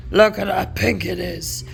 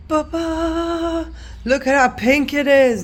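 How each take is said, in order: First: Said in the usual way. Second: High loud ta-da reveal; excited reveal. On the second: Real, not acted. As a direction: present it with a happy flourish. Reveals the pink spread.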